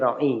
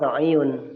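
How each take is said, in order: First: The word ends with a plain '-i' sound. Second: The word ends with a full '-iyun' ending. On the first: This is how the word is actually read aloud. "Jadi ra'i gitu aja langsung" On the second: This is the underlying full form of the word. "sebenarnya ra'iyun"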